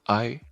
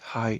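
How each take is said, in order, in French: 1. Le mot commence sans son h. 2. Le mot commence par un son h audible. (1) "c'est pas I" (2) "Parce que le H en anglais a une prononciation"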